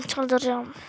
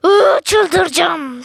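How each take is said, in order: First: Soft, resigned mutter under the breath; defeated mutter. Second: Drawn-out slow groan of frustration; exasperated. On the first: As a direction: say it to yourself, giving up. Hemen tekrar, kısık. (kendi kendine kısık mırıltı) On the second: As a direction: stretch it out, losing patience. Oyunda sinirleniyor. (uzatarak sinirli inleme) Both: Real, not acted.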